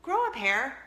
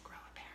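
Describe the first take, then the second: First: "Grow a pair?" asked back with a rising, confused tune; puzzled echo. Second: Embarrassed whisper. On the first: Retold or imitated. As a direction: echo it back like a baffled daughter. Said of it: "she's like". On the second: Real, not acted. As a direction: whisper "Grow a pair" with no voice, barely audible. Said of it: "I said".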